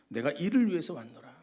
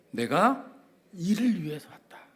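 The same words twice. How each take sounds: First: Said in the usual way. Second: Whisper. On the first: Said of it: "quote said again aloud". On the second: Acted. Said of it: "whispered quote".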